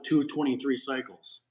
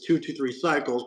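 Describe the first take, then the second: First: The middle part sounds like 'twenty-three'. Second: The middle part sounds like 'two three'. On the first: The speaker calls it wrong. "why do you pronounce it" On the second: The speaker calls it right. "the correct pronunciation of it is"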